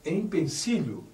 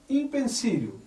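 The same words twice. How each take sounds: First: Said in the usual way. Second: "Empecilho" said as "impecilo", i first and no lh; wrong pronunciation. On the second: Shown as a demonstration. Teacher to class, demonstrating the common error. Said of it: "O certo é dizer empecilho".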